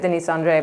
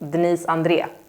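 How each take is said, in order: First: The name is said the English way. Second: The name is said the Swedish way.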